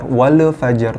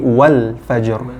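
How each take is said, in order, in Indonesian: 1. Bunyi L dipantulkan saat dilepas. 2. Bunyi L ditahan halus tanpa dipantulkan. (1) "jangan sampai dipantul"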